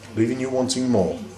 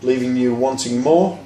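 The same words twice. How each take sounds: First: The voice falls at the end. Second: The voice rises at the end. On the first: The speaker calls it right. "the down inflection" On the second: The speaker calls it wrong. "the up inflection"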